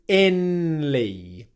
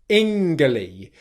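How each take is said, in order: First: An N sound comes before the L. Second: A hard G sound comes before the L. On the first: "pronounce an N sound instead of an ng sound" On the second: "where you pronounce that G letter as a G sound"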